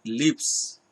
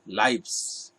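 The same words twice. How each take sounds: First: "lips" with a short i, stressed as the mistake; wrong pronunciation lips. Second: "lives" with a long eye vowel, like life plus s; correct pronunciation lives. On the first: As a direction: say "lips" slowly as the reading to avoid. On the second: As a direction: model "lives" to rhyme with fives. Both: Shown as a demonstration. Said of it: "Pronunciation will be lives".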